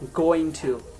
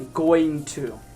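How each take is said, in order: The two takes are said the same way.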